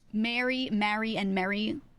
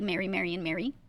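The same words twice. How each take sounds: First: The three words sound different. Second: The three words sound alike.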